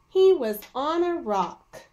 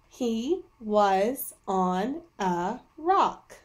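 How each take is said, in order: First: It is read smoothly, like natural talk. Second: It is read slowly, word by word.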